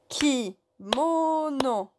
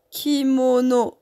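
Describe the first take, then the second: First: "Kimono" slowly split as ki, mo, no; découpage en syllabes. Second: Said in the usual way. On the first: Shown as a demonstration. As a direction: draw out each syllable of "Kimono". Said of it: "on ferait comme ça". (« Kimono » lentement, syllabe par syllabe) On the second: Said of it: "si on divise le mot".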